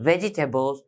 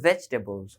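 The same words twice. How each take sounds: First: "ভেজিটেবলস" in four syllables, ve-ji-te-bols; common Bangladeshi mispronunciation. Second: "ভেজিটেবলস" shortened to three syllables, vej-te-bols; correct pronunciation. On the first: Teacher quoting what many in Bangladesh say, mispronounced vegetables. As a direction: sound out the extra "ji" in "ভেজিটেবলস". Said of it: "বাংলাদেশে অনেকেই বলে থাকি যে". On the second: Teacher correcting a common local habit, correct pronunciation. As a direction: drop the "i" after "j" in "ভেজিটেবলস". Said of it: "কিন্তু এখানে উচ্চারণ হবে". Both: Shown as a demonstration.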